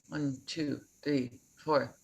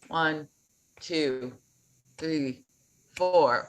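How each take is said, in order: First: The counting is fast. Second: The counting is slow.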